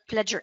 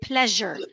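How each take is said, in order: First: The middle consonant is not a zh sound. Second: The middle consonant is a soft zh sound. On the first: The speaker calls it wrong. "not pleasure" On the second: The speaker calls it right. "in this one, it's pronounced like j. So we say pleasure"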